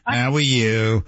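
It sounds brusque, New York-style.

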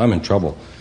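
It sounds calm, with little emotion.

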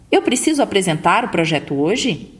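The pitch rises at the end like a question.

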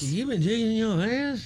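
It is said in a confused tone.

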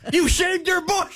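It sounds enthusiastic.

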